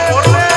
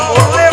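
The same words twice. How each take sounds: No difference in how they are said.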